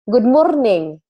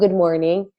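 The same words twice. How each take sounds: First: It is said with heavy, hard force. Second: It is said smoothly, without heavy force.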